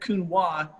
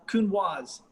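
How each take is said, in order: First: The final s sound is left silent. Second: The final s sound is pronounced. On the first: The speaker calls it wrong. ""You're not saying that right."" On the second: The speaker calls it right. "So I've been converted"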